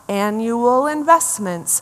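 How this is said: The words are run together into a new phrase. A hidden phrase becomes clear.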